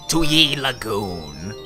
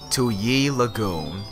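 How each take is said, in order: First: The name is said in a strong put-on accent. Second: The name is said in a weak put-on accent. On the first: The speaker calls it right. "that's much more better" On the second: The speaker calls it wrong. "I totally didn't do that in the right accent"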